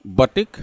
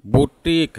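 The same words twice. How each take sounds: First: बटिक, 'BA-tik' with short vowels; first pronunciation option. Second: Slow बुटीक, 'boo-TEEK' with long ee; second pronunciation option. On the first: Teacher offering learners one option for boutique, short-vowel pronunciation. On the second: Teacher offering learners the other option, long-vowel pronunciation. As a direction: say बुटीक with oo and a drawn-out teek. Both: Shown as a demonstration.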